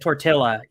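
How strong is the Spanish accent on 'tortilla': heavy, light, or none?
none. It is said fully English, with no Spanish sounds. The speaker sounds ignorant. "without the accent"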